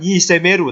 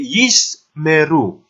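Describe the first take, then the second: First: A short vowel is heard between s and m. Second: The s and m join with no vowel between. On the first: The speaker calls it wrong. "bukan yisemeru" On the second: The speaker calls it right. "tapi yismeru"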